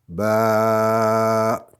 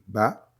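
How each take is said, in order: First: The vowel is held for four counts. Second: The vowel is held for one short count. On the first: "quatre fois plus long" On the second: "La première, comme on dit"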